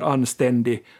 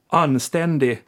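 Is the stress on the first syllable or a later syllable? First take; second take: later syllable; first syllable. First: The stress is on a later syllable. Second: The stress is on the first syllable. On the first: This is the Finland Swedish way. "som jag säger" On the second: This is the Sweden Swedish way. "I Sverige mer tryck överlag kanske på första stavelsen"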